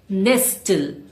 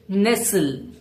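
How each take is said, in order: First: The T sound in the middle is pronounced. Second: The T sound in the middle is silent. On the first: The speaker calls it wrong. "It's not nestle" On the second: The speaker calls it right. "Say nestle"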